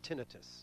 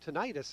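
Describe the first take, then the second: First: The word ends without an 'eye-tus' sound. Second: The word ends with an 'eye-tus' sound. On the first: "I say tinnitus" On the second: "an itis kind of sounds like an infection"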